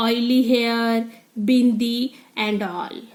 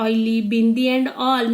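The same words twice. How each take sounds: First: Slow, scornful whisper; sneering whisper. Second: Said in the usual way. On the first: Acted. Rima sneering at the new girl in a whisper. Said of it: "showing her attitude". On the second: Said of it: "Means all things she is doing".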